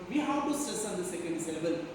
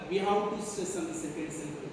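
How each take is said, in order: Both takes have the same delivery.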